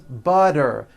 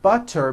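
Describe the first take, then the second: First: The middle consonant is a soft voiced D. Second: The middle consonant is a crisp T sound.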